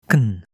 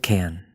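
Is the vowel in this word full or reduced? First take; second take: reduced; full. First: The vowel is almost gone, very short. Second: The vowel is clearly pronounced in full. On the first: "Hear how short that is? ... You hardly hear any vowel sound at all" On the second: "at the end of a sentence, we hear it pretty clearly"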